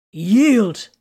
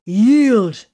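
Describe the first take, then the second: First: Insistent raised demand. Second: Roared command, loud and high; roaring. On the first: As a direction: press the order again. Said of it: "he insisted again". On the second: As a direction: roar the order. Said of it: "Titus roared". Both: A narrator's reading.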